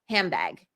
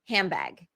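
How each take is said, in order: First: The D changes into a B sound. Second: The same.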